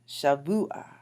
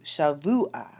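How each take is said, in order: First: Shavua said again, rising end; repeated model. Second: Shavua: sha-VU-a, falling end; model pronunciation. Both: Shown as a demonstration. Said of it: "get the pronunciations right".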